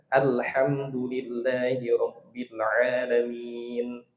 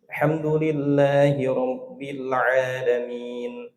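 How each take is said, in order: First: The opening 'al' sound is clearly said. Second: The opening 'al' sound is left out. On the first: The speaker calls it right. "Baca al-nya" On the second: The speaker calls it wrong. "Al-nya mana?"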